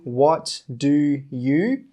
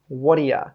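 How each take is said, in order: First: The words are said separately with a full 'you'. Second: The words run together, 'you' reduced to 'ya'. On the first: The speaker calls it wrong. "We don't say" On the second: The speaker calls it right. "We join them all together and we say"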